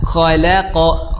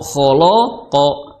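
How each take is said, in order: First: The l and vowels sound light and thin. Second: The l and vowels sound heavy and thick. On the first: The speaker calls it right. "lamnya tipis" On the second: The speaker calls it wrong. "jangan kholoqo kholoqo, akhirnya lamnya jadi tebal"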